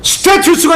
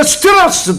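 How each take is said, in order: First: Said in the usual way. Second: 스테라스 with the middle T as an R-like flap; American flapped T. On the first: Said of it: "스테투스가 아니라 스테라스". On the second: Shown as a demonstration. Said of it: "T는 전부 로로 발음하는 게".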